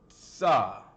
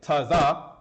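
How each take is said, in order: First: It is said as one single syllable. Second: It is split into two separate syllables. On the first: The speaker calls it right. "put it in one go" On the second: The speaker calls it wrong. "Instead of saying taza"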